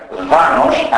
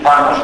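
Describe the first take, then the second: First: Δάνος with a voiced δ in place of θ; ancient-style δάνος, first sound voiced; old Macedonian d. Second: Said in the usual way. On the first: Shown as a demonstration. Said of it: "το θ το πρόφεραν ως δ". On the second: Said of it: "αντί θάνος".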